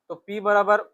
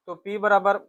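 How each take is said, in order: Both takes have the same delivery.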